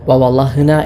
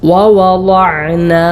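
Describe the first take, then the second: First: The middle sound is a breathy h. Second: The middle sound is a throaty ain. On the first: The speaker calls it wrong. "ഹ ആയിട്ടോ" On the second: The speaker calls it right. "ഐനായി തന്നെ ഉച്ചരിക്കണം"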